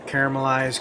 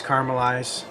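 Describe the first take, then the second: First: "Caramelize" as CARE-uh-muh-lize; three-syllable caramel. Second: "caramelize" as CAR-muh-lize; two-syllable caramel. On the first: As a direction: say "Caramelize" with a full extra "uh" after CARE. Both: Shown as a demonstration. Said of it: "Really kinda depends on where you're from".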